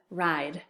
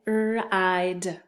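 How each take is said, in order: First: Said in the usual way. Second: "R-I-D" tapped out sound by sound, r, long i, d. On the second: Shown as a demonstration. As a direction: stretch "R-I-D" into its separate sounds. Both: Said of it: "have you tap it out".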